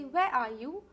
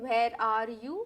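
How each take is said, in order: First: The R sounds are barely pronounced. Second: The R sounds are strongly pronounced. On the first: The speaker calls it right. "I will say where are you. So the R is very silent and subtle" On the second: The speaker calls it wrong. "I'm not saying where are you"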